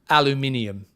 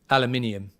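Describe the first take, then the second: The two takes are said the same way.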